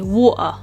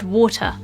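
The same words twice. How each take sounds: First: The middle T is a glottal stop. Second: The middle T is a clear T sound. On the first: "An example of a glottal stop would be" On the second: "all of the T's are enunciated ... they all sound like an actual T sound"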